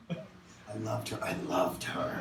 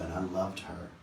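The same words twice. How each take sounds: First: Slow, soft whispered "I loved her"; hushed longing repetition; whispered confession. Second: Said in the usual way. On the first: Acted. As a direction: breathe it like a secret. Repeated confession trails to whisper.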